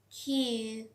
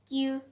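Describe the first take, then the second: First: The Q is said with a strong puff of air. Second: The Q is said without a puff of air. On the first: The speaker calls it right. "smartly, we can also speak that Q... air will be just coming from our inner one" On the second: The speaker calls it wrong. "We all just say that Q... This one just sounds so awkward one"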